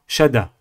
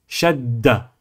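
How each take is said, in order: First: The middle consonant is short. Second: The middle consonant is held long. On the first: The speaker calls it wrong. "et non pas shada" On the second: The speaker calls it right. "Il faut insister sur la lettre"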